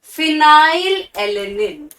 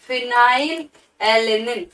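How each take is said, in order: First: "फिनाइल एलेनिन" drawn out slowly, syllable by syllable; slow spelled-out name. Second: Said in the usual way. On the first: Shown as a demonstration. Teacher modelling "फिनाइल एलेनिन" slowly for students. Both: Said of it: "F से क्या है आप लोगों का?".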